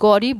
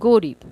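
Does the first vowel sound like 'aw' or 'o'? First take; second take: aw; o. First: The first vowel is an open 'aw' sound. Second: The first vowel is a closed 'o' sound. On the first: The speaker calls it wrong. "গরিব বলবো না" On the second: The speaker calls it right. "তাই উচ্চারণে ওকার হবে"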